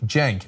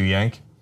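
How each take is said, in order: First: The name begins with a J sound. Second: The name begins with a Y sound. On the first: The speaker calls it right. "what's your name? Cenk" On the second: The speaker calls it wrong. "people usually wait to see it spelled before they screw it up"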